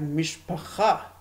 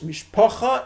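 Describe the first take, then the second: First: It is said in modern Israeli Hebrew pronunciation. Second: It is said in Ashkenazi Yiddish pronunciation.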